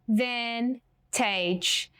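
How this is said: It is split into separate syllables.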